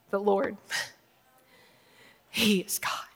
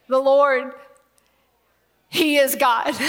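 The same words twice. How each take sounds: First: Awed, barely voiced; hushed whisper. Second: Loud proclamation. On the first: Preacher voices the people hushed on their faces, a reverent whisper. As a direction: whisper "The Lord, he is God" softly and reverently. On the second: Acted. Preacher voices the people crying out, a loud tearful proclamation. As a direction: proclaim "The Lord, he is God" loudly, voice catching. Then proclaimed aloud, near tears.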